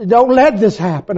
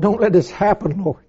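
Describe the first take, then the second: First: Higher, fuller-voiced begging; urgent repeated prayer; rising plea. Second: Soft, hushed plea; quiet desperate prayer; begging prayer. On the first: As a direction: push the plea harder. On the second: Retold or imitated. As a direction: whisper the plea to God. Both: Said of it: "I prayed and I cried to the Lord".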